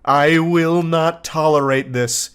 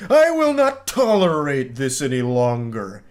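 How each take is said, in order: First: Slow, measured indignant declaration; acted fury. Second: Slow, drawn-out villainous outburst; fist-slamming fury. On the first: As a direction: draw out each word in restrained mock fury. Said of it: "this fury". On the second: Acted. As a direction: declaim it like a supervillain slamming the desk. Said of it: "slamming his fist into his desk".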